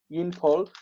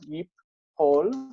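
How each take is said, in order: First: An n sound is heard before the p. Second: The n merges into a doubled p sound. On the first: "This is theoretical. This is not uh, how we ever find the word" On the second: "That nun that's up against a consonant tends to uh, assimilate"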